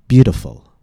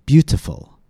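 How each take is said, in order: First: The T is a quick, light D-like tap. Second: The T is a crisp, aspirated T sound. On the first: "the letter T sounds more like a quick, light D" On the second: "not like the aspirated T"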